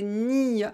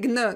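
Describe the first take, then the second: First: It is said as a single soft ny sound. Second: It is said as a hard g followed by n. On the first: The speaker calls it right. "En français, c'est ni" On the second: The speaker calls it wrong. "il ne faut pas prononcer gne. Non, ça, c'est pas bon"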